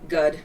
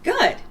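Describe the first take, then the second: First: It is said flatly and without enthusiasm. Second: It is said brightly and with enthusiasm. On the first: The speaker is not really feeling well, only being polite. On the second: The speaker is genuinely feeling well.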